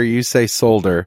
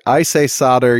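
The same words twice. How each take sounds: First: Solder said as "sole-der"; L sounded in solder. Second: Solder said as "sodder"; silent-L solder. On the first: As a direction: pronounce the L in solder. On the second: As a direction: drop the L in solder. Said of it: "I say solder". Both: Shown as a demonstration.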